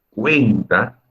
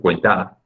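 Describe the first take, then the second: First: The stress is on the first syllable. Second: The stress is on the second syllable. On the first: The speaker calls it right. "sonar un poco más fuerte a esta sílaba que es la tónica" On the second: The speaker calls it wrong. "en cuenta no se dice cuenta"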